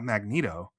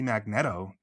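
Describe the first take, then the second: First: The middle syllable sounds like 'neat'. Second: The middle syllable sounds like 'net'. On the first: "not Magneto" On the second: "why wouldn't it be Magneto"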